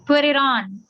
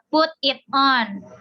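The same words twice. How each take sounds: First: The words are linked smoothly into one unit. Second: The words are said separately, without linking.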